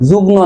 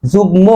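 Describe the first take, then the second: First: যুগ্ম as "jugno", n replacing m; wrong pronunciation. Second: যুগ্ম as "jugmo", m sounded; correct pronunciation. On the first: Teacher rejects a common error, n in place of m in যুগ্ম. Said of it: "যুগ্ম নয়". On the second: Teacher corrects a common error, clear m in যুগ্ম. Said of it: "আসলেই উচ্চারণ হবে কি?". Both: Shown as a demonstration.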